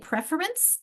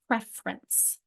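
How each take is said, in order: First: The word is said with three full syllables. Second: The word is said with only two syllables. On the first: "Do you really say preference" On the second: "or do we say preference? ... It becomes two syllables"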